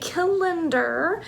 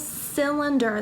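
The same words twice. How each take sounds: First: The word begins with a hard k sound. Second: The word begins with a soft s sound. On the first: The speaker calls it wrong. "We don't say cylinder" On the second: The speaker calls it right. "it's a cylinder, the soft C sound"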